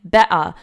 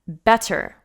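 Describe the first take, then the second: First: The middle consonant is a glottal stop. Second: The middle consonant is a clear T sound. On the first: "they use glottal stops" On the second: "we pronounce the word better with a T"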